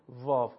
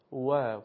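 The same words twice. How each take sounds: First: «واو» starting on a Persian v; Persian vav. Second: «واو» starting on a w, no teeth on the lip; Arabic waw. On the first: Teacher contrasts Persian with Arabic, «واو» said with a v. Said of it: "واو که من در فارسی تلفظ کردم". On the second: Teacher models classical Arabic, «واو» with pursed lips as w. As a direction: say «واو» with rounded lips, as English w. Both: Shown as a demonstration.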